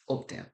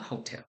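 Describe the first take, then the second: First: The H at the start is silent. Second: The H at the start is pronounced. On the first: The speaker calls it right. "the H in Spanish is silent" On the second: The speaker calls it wrong. "It is not hotel"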